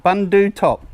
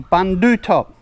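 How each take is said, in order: Both takes have the same delivery.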